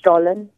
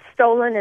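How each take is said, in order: First: It is said with a German pronunciation. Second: It is said with a local American pronunciation. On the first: This is how it is said in Germany. "over in Germany, it's pronounced Stollen" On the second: This is how it is said locally. "Stollen is how you say it here"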